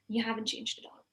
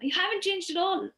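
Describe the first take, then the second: First: It is said in an angry, annoyed tone. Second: It is said in a delighted, admiring tone. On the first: The speaker resents that the person is still the same. "Like a little more angry" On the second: The speaker compliments the person on still looking young. "oh my God, you still look so young"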